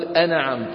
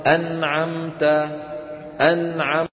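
First: أنعمت as "ana-amta", a vowel after n; wrongly bounced noon. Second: أنعمت as "an-amta", n held with no vowel; still, unbounced noon. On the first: Teacher shows what we do not say, bounced noon. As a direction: shake the n of أنعمت into "na". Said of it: "ولا نقول". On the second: Teacher shows students how to pronounce it, still noon. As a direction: hold the n in أنعمت cleanly, then the ayn. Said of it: "أنعمت كيف ننطقها؟". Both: Shown as a demonstration.

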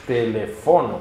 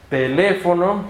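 First: Telefono as te-le-FO-no; Esperanto stress. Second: Teléfono as te-LE-fo-no; Spanish stress. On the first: Teacher gives Esperanto version, telefono stressed te-le-FO-no. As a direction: lean on FO in telefono. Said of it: "en Esperanto es". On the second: Teacher cites the Spanish word, teléfono as te-LE-fo-no. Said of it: "No es teléfono". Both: Shown as a demonstration.

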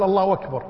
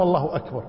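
First: أكبر slurred into wakbar after الله; waw for hamza. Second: أكبر kept with its glottal stop; proper hamza. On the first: Old man quotes the muezzin's mistake, hamza lost. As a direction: run الله أكبر together with a w glide. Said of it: "قال الأذان يقول". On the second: Old man quotes the right takbir, hamza kept. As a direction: say الله, then a clear a at the start of أكبر. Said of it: "ما يقول الله أكبر". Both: Retold or imitated.

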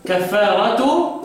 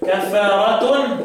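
First: Slow "كفارة" ending in open -tu; without tanween. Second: Very slow "كفارة" ending in a held -tun; with tanween. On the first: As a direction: draw out kaffaaratu with no n on "كفارة". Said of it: "بيبقى من غير تنوين". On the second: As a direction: draw out kaffaaratun, sounding the n in "كفارة". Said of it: "كفارة نون أهي". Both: Shown as a demonstration.

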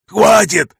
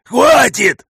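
First: High shrieking plea to stop; panicked wail. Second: Even higher desperate shriek; panicked wail, higher. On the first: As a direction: scream it in panic. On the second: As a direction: beg louder in rising panic. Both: Acted. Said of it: "завопил он".

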